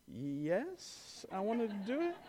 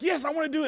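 First: Much softer, small and unsure yes; a brave face barely holding; timid forced yes. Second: Higher, bouncy eager yes from the bold brother; eager kid. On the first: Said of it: "And Parker's like". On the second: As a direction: jump at the chance like a fearless nine-year-old. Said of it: "Peyton was like". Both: Retold or imitated.

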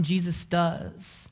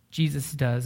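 First: Drawn-out, higher emphasis on "Jesus does"; slow emphatic. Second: Said in the usual way. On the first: Real, not acted. Preacher to seminary students, stretching "Jesus does" slowly. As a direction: let "Jesus does" land slowly and high.

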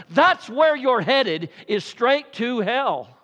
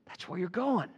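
First: Slow and heavy, each word leaned on; slow, emphatic sermon warning; slow hammered warning. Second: Hushed, sober repetition; quiet echo. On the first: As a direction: drive the warning home slowly. Warning hearers they head to hell. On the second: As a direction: let it sink in softly. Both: Real, not acted.

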